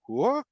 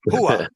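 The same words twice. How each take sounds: First: It sounds puzzled and questioning. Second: It sounds like a plain acknowledgment. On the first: The speaker did not understand. "like I didn't understand" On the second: The speaker understood. "yes, I got it"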